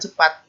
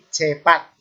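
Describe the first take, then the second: First: The e vowel is short and reduced. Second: The e vowel is full and clearly heard. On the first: "bilangnya bukan cepat" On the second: "Terdengar e-nya cepat gitu"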